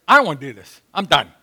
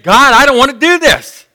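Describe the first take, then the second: First: Said in the usual way. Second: Raised, higher pleading to God. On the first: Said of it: "but Jesus said". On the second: Retold or imitated. Jesus begging God in the garden, louder and higher. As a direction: beg God to spare him. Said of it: "he's pleading".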